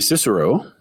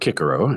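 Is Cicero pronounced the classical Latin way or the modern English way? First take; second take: English; classical Latin. First: The name is said in the modern English way. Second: The name is said in the ancient Latin way.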